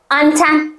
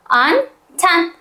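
First: The syllables are joined without a pause. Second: The syllables are split by a pause.

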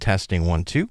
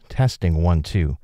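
First: The voice has boosted high frequencies. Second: The voice has boosted low frequencies. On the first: "Here's the top end" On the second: "So let's bring up the low frequencies"

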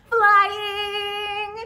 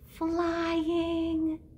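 First: The word is said very loudly. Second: The word is said very quietly.

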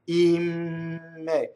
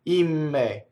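First: It is said slowly, drawn out. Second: It is said at normal speed.

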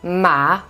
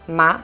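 First: The pitch dips low, then rises. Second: The pitch rises from middle to high. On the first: It means horse. "ma signifie cheval" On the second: It means hemp. "ma signifie le chanvre"

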